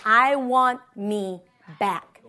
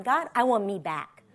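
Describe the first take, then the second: First: Slow, low, word by word; deliberate resolve. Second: Low, soft prayer; quiet resolve. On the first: Repeating her lunchtime prayer, deliberate resolve. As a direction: spell out the decision slowly and firmly. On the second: Retelling a lunchtime prayer, quiet resolve. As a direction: say it low and hushed to God. Prayer retold, first take. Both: Retold or imitated.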